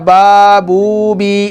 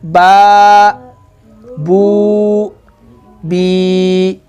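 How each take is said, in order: First: The syllables run together without pauses. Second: Short pauses separate each syllable.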